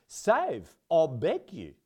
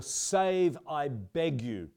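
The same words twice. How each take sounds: First: South African accent. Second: Said in the usual way. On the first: Shown as a demonstration. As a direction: save I beg you in South African accent. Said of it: "needs to be said with a South African accent". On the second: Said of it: "which really needs to be said with a South African accent".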